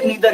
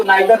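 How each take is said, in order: First: Neither said "nee-dhar", with a long "ee" after the n; neither as "needher". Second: Neither said "naa-ee-dhar", starting on the sound of "nigh"; neither as "naidher". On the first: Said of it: "neither ही बोलते हैं". (neither को "नीदर" बोलें, लंबा "ई") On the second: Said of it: "neither नहीं बोलते". (neither को "नाइदर" बोलें) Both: Shown as a demonstration.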